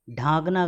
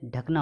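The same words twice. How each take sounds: First: ढांकना with a long "dhaa"; wrong long vowel. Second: ढकना with brief "dhak"; short vowel. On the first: Teacher showing the error, long "dhaa" in ढांकना. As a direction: stretch the first vowel of ढांकना. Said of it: "गलत है". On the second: Teacher correcting students, short "dhak" in ढकना. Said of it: "होता है". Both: Shown as a demonstration.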